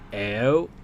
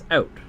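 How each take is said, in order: First: The word is said slowly and carefully. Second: The word is said very quickly. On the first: "like out" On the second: "when it's said really fast"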